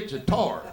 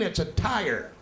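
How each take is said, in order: First: Tire is said like 'tar', Eastern Kentucky style. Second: Tire is said with a standard 'tire' vowel.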